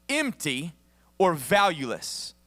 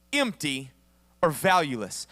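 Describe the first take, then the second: No difference in how they are said.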